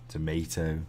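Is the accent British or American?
American. It is said in an American accent.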